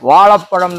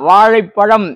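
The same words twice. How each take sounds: First: The word is said with a plain la sound. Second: The word is said with a retroflex zha sound. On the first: The speaker calls it wrong. "ழாவுக்கு லா வந்துடும்" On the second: The speaker calls it right. "ழா வாழைப்பழம் என்று சொல்வதற்கு"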